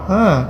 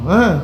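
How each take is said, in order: The two takes are said the same way.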